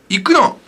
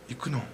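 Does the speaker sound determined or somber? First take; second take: determined; somber. First: It is said in a firm, determined tone. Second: It is said in a low, somber tone. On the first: The speaker is resolved to go. "It's a determination. I'm determined" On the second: The speaker is going reluctantly or gravely. "Or it's somber"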